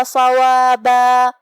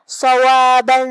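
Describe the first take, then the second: First: صوابا chanted slowly and louder, ending on a held long alif; slow melodic صوابا at the verse end; verse recitation. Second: صوابا with a heavy صاد and a long final alif, louder; louder chanted صوابا; tajweed demo. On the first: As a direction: stop on صوابا with a drawn-out alif. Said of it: "ہم کلمت صوابہ پہ رکیں گے تو اس پہ مد الف سے رکیں". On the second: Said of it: "ادا کریں گے". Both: Shown as a demonstration.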